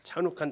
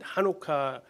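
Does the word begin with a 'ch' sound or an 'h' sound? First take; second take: ch; h. First: The word begins with a 'ch' sound. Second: The word begins with an 'h' sound. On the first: This is a reading of the English spelling. "영어로 한번 읽어보실래요?" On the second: This is how Israelis say it. "하누카라고 그들은 읽습니다"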